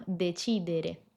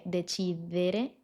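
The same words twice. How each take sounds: First: "decidere" with the D closed and dental, tongue behind the upper teeth; correct Italian D. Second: "decidere" with the tongue out between the teeth, a soft Spanish D; wrong Spanish-style D. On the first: Teacher correcting the mistake, crisp dental Italian D. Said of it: "sino decidere". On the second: Teacher showing the mistake students make, soft Spanish D. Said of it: "No dije decidere". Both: Shown as a demonstration.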